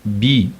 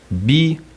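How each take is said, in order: First: The syllable is said on a mid pitch. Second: The syllable is said on a high pitch. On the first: It means to endure. "O tom médio" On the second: It means to ask. "Esse é o tom alto"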